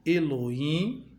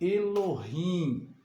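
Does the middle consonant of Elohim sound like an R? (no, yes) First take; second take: no; yes. First: The middle consonant has no R-like sound. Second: The middle consonant sounds like an R. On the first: This is the Portuguese reading of the word. "diferente do português, que se lê" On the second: This is the original-language reading of the word. "porque é um H que tem um som de R"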